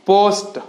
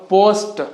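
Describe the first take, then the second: No difference in how they are said.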